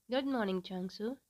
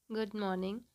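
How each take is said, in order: First: Held-back irritation under a polite greeting; restrained frustration. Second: Curt, slightly cool greeting; a little serious. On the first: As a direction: greet him while swallowing annoyance. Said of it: "while controlling his frustration". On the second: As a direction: answer guardedly, unsmiling. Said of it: "he said a little seriously". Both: A narrator's reading.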